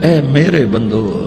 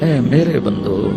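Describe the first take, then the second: No difference in how they are said.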